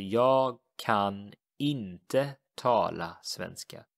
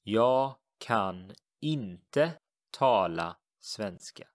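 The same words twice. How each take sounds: First: Jag kan inte tala svenska, slow repeat; slow model sentence. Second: Jag kan inte tala svenska, slow and careful; slow teacher demo of the Swedish; slow model sentence. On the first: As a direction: say it again slowly. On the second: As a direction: model every word slowly. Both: Shown as a demonstration. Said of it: "I cannot speak Swedish".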